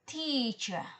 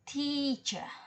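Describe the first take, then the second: First: The stressed syllable is longer, higher and louder. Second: The stressed syllable is held longer. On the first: "all three combined teacher" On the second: "longernya teacher"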